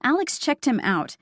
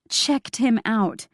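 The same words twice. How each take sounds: First: Said in the usual way. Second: Slow, meaningful checked him out, leaning on him; knowing emphasis on him; stress on him. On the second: Acted. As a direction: draw out checked him out, pushing him. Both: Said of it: "like, checked him out".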